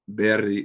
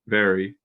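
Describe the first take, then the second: First: The R is a quick tapped flap. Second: The R is a smooth English R. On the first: The speaker calls it wrong. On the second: The speaker calls it right.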